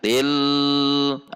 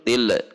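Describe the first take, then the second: First: The L is held for a long time. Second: The L ends with a bounce. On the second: "yang memantul"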